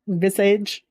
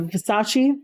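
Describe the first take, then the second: First: The name sounds like the word visage. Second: The name sounds like Ver-sah-chay. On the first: The speaker calls it wrong. "I really thought it was pronounced like Visage" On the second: The speaker calls it right. "but it's uh, Versace"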